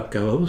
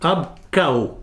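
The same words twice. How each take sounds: First: The last word ends with an s sound. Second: The last word ends without an s sound. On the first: The speaker calls it wrong. "c'est pas ab chaos" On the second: The speaker calls it right. "On ne prononce pas le S"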